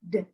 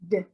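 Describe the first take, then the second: The two takes are said the same way.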